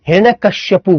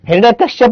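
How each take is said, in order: First: The name ends with a final 'u' vowel. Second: The name ends on a bare 'p' consonant. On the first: The speaker calls it right. "हिरण्य कश्यपु बोलते हैं" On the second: The speaker calls it wrong. "हिरण्य कश्यप नहीं बोलते"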